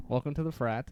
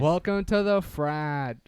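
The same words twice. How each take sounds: First: Said in the usual way. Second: Slow, loud bro greeting; frat bro welcome. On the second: Acted. Hosting intro, slow and loud.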